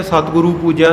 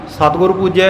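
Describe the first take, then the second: First: ਸਤਿਗੁਰੂ with final oo, "satguru"; ਸਤਿਗੁਰੂ with oo before ਪੂਜਿਆ; wrong long ending. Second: ਸਤਿਗੁਰ ending on r, "satgur"; ਸਤਿਗੁਰ without final oo; short ending. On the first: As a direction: add long oo to end ਸਤਿਗੁਰੂ. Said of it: "ਨਹੀਂ". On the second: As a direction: stop ਸਤਿਗੁਰ at r before ਪੂਜਿਆ. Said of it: "ਦੁਲੈਂਕੜ ਨਹੀਂ ਬੋਲਣੀ". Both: Shown as a demonstration.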